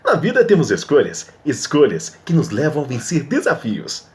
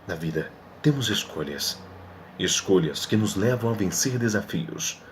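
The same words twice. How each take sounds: First: It is read in a lively, dynamic way. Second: It is read like dramatic film narration.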